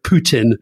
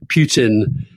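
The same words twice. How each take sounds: First: "Putin" with a plain oo, POO-tin; corrected pronunciation. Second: "Putin" with a y-glide, PYOO-tin; habitual mispronunciation. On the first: Self-correcting between two pronunciations. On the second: Repeats the name his own way. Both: Shown as a demonstration.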